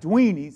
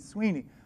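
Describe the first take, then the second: First: The name begins with a D sound. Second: The name begins with an S sound. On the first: Someone else is mispronouncing the name. The speaker calls it wrong. "Carlos couldn't say my name" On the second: This is the name's actual form. The speaker calls it right. "not Dweeney, Sweeney"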